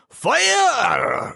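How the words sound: The word is said in a Japanese accent. "in a very racist Japanese accent"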